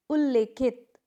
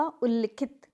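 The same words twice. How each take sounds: First: उल्लेखित with long e, ul-le-khit; wrong pronunciation. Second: उल्लिखित with short i, ul-li-khit; correct pronunciation. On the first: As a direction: demonstrate उल्लेखित with le. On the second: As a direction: model उल्लिखित with li. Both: Shown as a demonstration. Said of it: "क्या होगा?".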